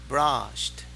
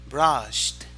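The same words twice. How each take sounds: Both takes have the same delivery.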